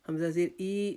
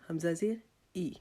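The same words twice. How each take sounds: First: The final vowel is a drawn-out long i. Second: The final vowel is a short i. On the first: The speaker calls it wrong. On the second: The speaker calls it right.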